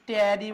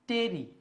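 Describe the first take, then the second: First: The vowel sounds like the 'a' in cat. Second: The vowel sounds like the 'e' in bed. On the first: The speaker calls it wrong. "অনেকে এটাকে এরকম ট্যারি বলবে" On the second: The speaker calls it right. "মনে থাকবে উচ্চারণটা হবে টেরি"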